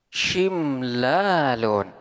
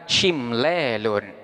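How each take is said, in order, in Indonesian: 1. Vokal panjangnya adalah a terbuka yang biasa. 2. Vokal panjangnya condong ke bunyi e. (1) "Contohnya seperti lafaz shimlalun" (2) "boleh dibaca imalah sehingga boleh dibaca"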